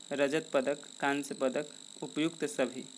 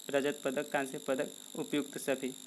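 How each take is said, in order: No difference in how they are said.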